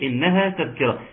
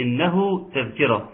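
First: Recital marking the "haa" ending of "إنها"; contrasting "إنها". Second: Slower recital marking the "hu" ending of "إنه"; contrasting "إنه". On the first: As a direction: bring out the long "ها" closing "إنها". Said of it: "لا، هناك". (إبراز "ها" في آخر "إنها") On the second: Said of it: "هنا إيه؟". (إبراز الهاء المضمومة في "إنه") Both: Shown as a demonstration.

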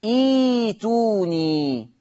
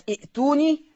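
First: ايتوني very slow, long ee without a glottal stop; hamza turned to yaa. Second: ائتوني with a catch in the throat after i; hamza sounded. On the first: Teacher answering own question, slow ايتوني with long ee. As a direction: draw out ايتوني as ee-tuu-nii. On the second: Teacher quizzing students on the word, ائتوني with hamza. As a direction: pronounce the hamza of ائتوني as a glottal stop. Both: Shown as a demonstration. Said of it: "تقرأ ايه".

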